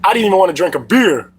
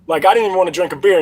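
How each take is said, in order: First: Said in the usual way. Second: Faster repeat with "didn't" punched; stress on didn't. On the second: Shown as a demonstration. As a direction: hit "didn't" as he repeats it, quickly.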